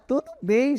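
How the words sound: It is said in a cheerful, happy tone. The speaker feels glad.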